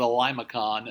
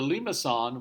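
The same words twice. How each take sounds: First: The word is said with plain English sounds. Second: The word is said with French-like sounds. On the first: The speaker calls it wrong. "the lady I used to work with who called it a limacon" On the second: The speaker calls it right. "That's as close as I can get to the French pronunciation"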